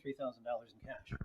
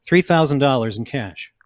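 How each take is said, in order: First: Far from the microphone, much softer; mumbled away from the mic; off-mic quiet. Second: Louder, straight into the mic; into the microphone. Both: Real, not acted. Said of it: "Say that into the microphone".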